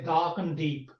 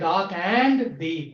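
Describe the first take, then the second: First: The word 'and' is weakened and reduced. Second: The word 'and' is said in full. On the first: The speaker calls it right. "we say" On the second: The speaker calls it wrong. "we don't say"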